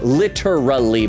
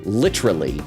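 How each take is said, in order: First: Every syllable is said fully and clearly. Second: The syllables are slurred together and reduced. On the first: "it's technically pronounced literally" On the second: "a lot of people just say literally"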